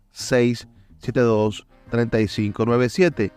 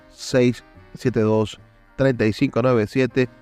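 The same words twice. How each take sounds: The two takes are said the same way.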